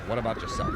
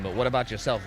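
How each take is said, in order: First: Mock question squeaked very high. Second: Said in the usual way. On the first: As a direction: squeal it way up to tease him. Taunting a downed player.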